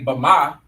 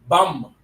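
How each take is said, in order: First: It is said as two syllables with a vowel. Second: It is said as one syllable without the vowel. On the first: The speaker calls it wrong. "You don't say Bama" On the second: The speaker calls it right. "you say Bum"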